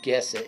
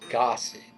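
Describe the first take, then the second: First: The first syllable sounds like guess. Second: The first syllable sounds like goss. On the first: The speaker calls it wrong. "It's not guess it" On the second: The speaker calls it right. "it's gossip"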